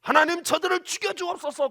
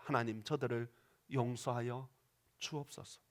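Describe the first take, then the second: First: Loud, higher cry for revenge; vengeful prayer. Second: Softer, lower, tender plea; gentle prayer. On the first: Pretend. Stephen's imagined wrong prayer against stoners, vengeful loud cry. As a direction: demand God strike them down. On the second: Acted. Stephen praying for those stoning him, soft tender plea. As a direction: pray quietly for your killers' forgiveness.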